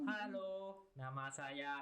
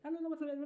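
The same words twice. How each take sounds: First: It is said slowly and carefully. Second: It is said very fast.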